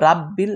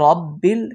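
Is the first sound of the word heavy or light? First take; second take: light; heavy. First: The r and vowel are said thin and light. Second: The r and vowel are said thick and heavy. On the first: The speaker calls it wrong. "পাতলা করে" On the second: The speaker calls it right. "এটা একটু মোটা করে পড়বেন"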